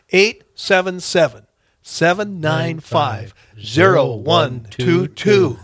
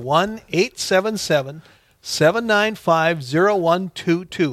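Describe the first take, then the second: First: The number is read at a slower pace. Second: The number is read at a quicker pace.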